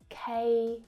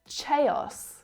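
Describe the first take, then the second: First: The word begins with a hard K sound. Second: The word does not begin with a K sound. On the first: The speaker calls it right. "K, like the letter K, and os" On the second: The speaker calls it wrong. "And not chaos or chaos"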